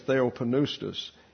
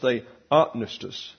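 First: The stress is not on the second syllable. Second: The stress is on the second syllable. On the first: The speaker calls it wrong. "We like to say theopneustos" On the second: The speaker calls it right. "the second syllable is what's accented here"

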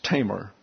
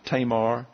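First: The stress is on the first syllable. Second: The stress is on the second syllable. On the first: The speaker calls it right. "accent on the first syllable" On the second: The speaker calls it wrong. "You may be calling her Tamar or Tamar"

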